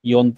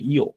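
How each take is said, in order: First: The word ends with an n sound. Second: The word ends on a vowel, without n. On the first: This is the usual form of the number four. "ইয়র পরে ন" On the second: This form is used when telling the hour. "এই নটা আমরা বলবো না। আমরা বলবো যে শুধুমাত্র ইও বলবো"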